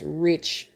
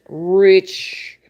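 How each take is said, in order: First: Said in the usual way. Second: Rich said much louder and drawn out; emphatic repeat. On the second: Real, not acted. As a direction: lean hard on the second rich.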